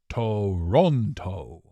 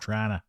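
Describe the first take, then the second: First: All three syllables are pronounced fully. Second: It is clipped to two syllables, like Trana. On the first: The speaker is not from the city. The speaker calls it wrong. "That's how you know somebody's not from Toronto" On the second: The speaker is a local. The speaker calls it right. "A true Torontonian is like, ... T R A N A"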